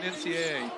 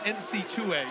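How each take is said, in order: First: Each letter A is said separately. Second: The double A is said as 'two A'. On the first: "instead of saying N C A A" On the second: "I'm famous for saying N C two A"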